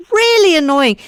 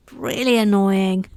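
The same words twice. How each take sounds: First: High, louder Really annoying; exaggerated. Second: Said in the usual way. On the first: Mock complaint about her broken mic, pitched high. Repeat in a new voice.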